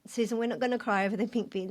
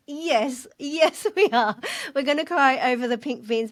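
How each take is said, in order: First: Scolding herself. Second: Higher, laughing and giving in to tears; laughing defiance. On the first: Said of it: "And I even thought". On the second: Susan overruling her own inner voice, laughing defiance. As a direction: answer yourself with a giggly yes. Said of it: "And I was like". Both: Retold or imitated.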